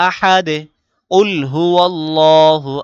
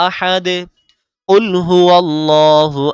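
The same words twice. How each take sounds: No difference in how they are said.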